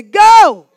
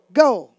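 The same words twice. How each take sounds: First: Huge high, drawn-out shout; full-force rallying yell; like you mean it. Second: Contained, punchy prompt; call-out before meaning it. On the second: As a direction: call it out briskly, holding back. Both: Shown as a demonstration. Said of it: "Act like you mean it".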